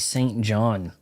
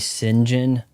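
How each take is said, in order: First: It is said as two full words. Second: It is squeezed into one short word. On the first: This is the reading one expects from the spelling. "They don't say Saint John in English" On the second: This is how the English actually say the name. "You say Sinjin, which is bizarre as all hell"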